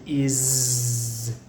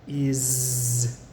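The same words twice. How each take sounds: First: The word ends with a buzzing z sound. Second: The word ends with a buzzing z sound.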